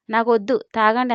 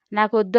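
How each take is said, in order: First: నాకొద్దు tossed back with a cheeky rise. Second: Said in the usual way. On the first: A narrator's reading. The bride throws his refusal back at him, cheeky. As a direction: answer him back, defiant and cocky. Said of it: "అంది బలుపుగా". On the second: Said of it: "అంటూ లేచి".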